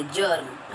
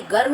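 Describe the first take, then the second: First: "जर्म" with j at the start; correct J sound. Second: "गर्म" with hard g for germ; wrong hard G. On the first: Teacher correcting for children, "जर्म" with j. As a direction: open "जर्म" on j, not g. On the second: Teacher showing children the mistake, "गर्म" with hard g. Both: Shown as a demonstration. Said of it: "गर्म नहीं बोलेंगे".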